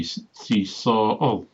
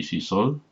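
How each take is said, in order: First: Sol drawn out and broken in two, so-ol; si sol with the o lengthened and split by a catch in the throat; glottal stop. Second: Said in the usual way. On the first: Shown as a demonstration. Showing the feminine missus, sol split by a glottal stop. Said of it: "lengthen the vowel and put a glottal stop". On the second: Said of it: "to make it feminine".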